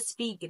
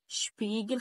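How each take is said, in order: First: The word begins with a plain s sound. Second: The word begins with an sh sound. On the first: The speaker calls it wrong. "ما تقوليش بقى سبيجل" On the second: The speaker calls it right. "عندي بعد كده شبيجل"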